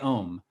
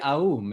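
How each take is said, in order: First: The vowel is one short steady o sound. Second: The vowel glides from ah toward oo. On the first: This is the common everyday way of saying it. The speaker calls it wrong. "we say we say Om" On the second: This is the proper, fuller way of saying it. The speaker calls it right. "it's it's really Aum"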